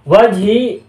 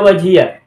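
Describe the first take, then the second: First: The word ends on a short ee sound. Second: The word ends with an added ya syllable. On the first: "Wajhi boleh dibaca begini" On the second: "juga boleh dibaca wajhiya"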